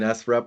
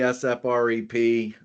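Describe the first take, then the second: First: The name is pronounced as a single word. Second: The name is spelled out letter by letter. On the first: The speaker calls it wrong. "Someone said, "Don't you mean S F R E P?"" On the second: The speaker calls it right. "I always say S F R E P"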